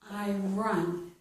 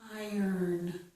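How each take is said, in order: First: The second syllable sounds like 'run'. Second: The second syllable sounds like 'ern'. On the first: The speaker calls it wrong. "It's not I run" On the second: The speaker calls it right. "It's I earn"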